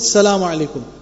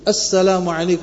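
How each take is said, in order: First: The opening 'as' syllable is left out. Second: The opening 'as' syllable is clearly pronounced. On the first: The speaker calls it wrong. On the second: The speaker calls it right.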